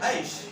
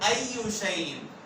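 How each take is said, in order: First: The phrase is shortened to one syllable. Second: The phrase is said in full, four syllables. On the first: This is the everyday colloquial form. "इसको शॉर्ट करके किस तरह बोल देते हैं ऐश" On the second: This is the classical form used in the Quran. "असल में फुसहा में ये लफ्ज था अय्यू"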